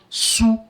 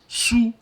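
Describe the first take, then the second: First: The syllable is said with its African-name sound. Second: The same.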